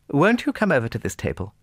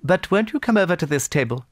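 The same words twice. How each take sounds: First: High, coaxing lady's invitation; anxious hostess. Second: Higher, louder, more urgent invitation; insistent hostess. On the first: Anna Pavlovna tries to draw Pierre away, high coaxing. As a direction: call him over politely, pitched high. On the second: Anna Pavlovna repeats her plea to Pierre, insistent. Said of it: "repeated Anna Pavlovna". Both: A narrator's reading.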